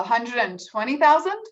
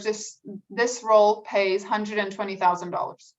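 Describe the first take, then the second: First: Salary said with an upward lilt like a question; rising question tune. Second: Pays hundred and twenty thousand dollars said with a firm falling end; falling statement tune. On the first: Coach demonstrating the wrong, uncertain way: rising tune. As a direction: make hundred and twenty thousand sound like you're asking. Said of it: "I'm asking a question". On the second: Coach demonstrating the confident way: falling tune. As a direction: state the number, don't ask it. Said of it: "I inflected down". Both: Shown as a demonstration.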